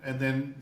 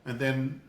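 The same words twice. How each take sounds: The two takes are said the same way.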